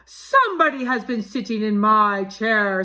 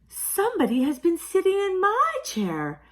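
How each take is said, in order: First: It is said in a great big voice. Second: It is said in a middle-sized voice.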